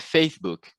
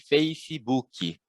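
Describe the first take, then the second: First: The word ends on the k with no vowel. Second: An extra i sound follows the final k. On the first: This is how English speakers say it. "em inglês, por exemplo, é Facebook" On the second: This is how Portuguese speakers say it. "tende a preencher também, né? Com a letra I"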